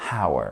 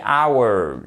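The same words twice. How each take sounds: First: "hour" with an audible H in front; wrongly sounded H. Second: "hours" drawn out, starting on the vowel; silent H. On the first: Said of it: "et non pas hour". (« hour » avec le H prononcé à tort) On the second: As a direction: say "hours" slowly with no H sound. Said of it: "ne se prononce pas. On dit hours". (« hours » étiré, sans prononcer le H) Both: Shown as a demonstration.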